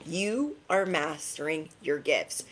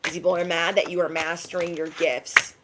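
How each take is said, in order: First: "You are mastering your gifts" slowed down, each word set apart; emphatic repeat. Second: Said in the usual way. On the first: Real, not acted. Reader affirming the listeners' talents, slow emphatic repeat. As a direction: stretch YOU and land slowly on "mastering".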